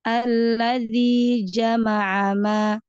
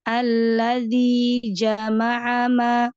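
Both takes have the same delivery.

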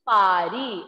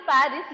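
First: The final s is silent. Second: The final s is pronounced.

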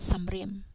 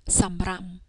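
First: The second syllable has the vowel 'im'. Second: The second syllable has the vowel 'am'. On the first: The speaker calls it wrong. "as opposed to samrim" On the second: The speaker calls it right. "which is the reason why it is read samram"

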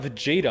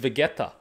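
First: The middle consonant is a J sound. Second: The middle consonant is a hard G sound. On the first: This is how the name is said in English. "where's the J?" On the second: This is how the name is read in Serbian. "we pronounce it as Vegeta"

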